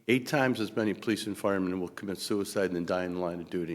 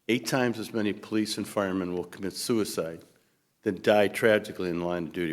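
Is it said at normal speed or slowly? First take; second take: normal speed; slowly. First: It is said at a normal speed. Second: It is said slowly.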